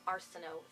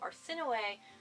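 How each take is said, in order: First: The name ends on an 'oh' sound. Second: The name ends on an 'ee' sound. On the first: The speaker calls it wrong. "I was not about to call her Arsino throughout the entire book" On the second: The speaker calls it right. "that's how you pronounce her name"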